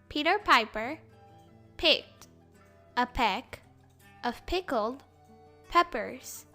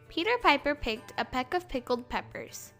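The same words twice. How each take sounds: First: It is said slowly. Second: It is said at normal speed.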